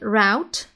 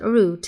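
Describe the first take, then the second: First: The word is pronounced the American way. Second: The word is pronounced the British way. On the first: "Some people in, in the U S call it route" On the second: "British people will always, almost always call it route"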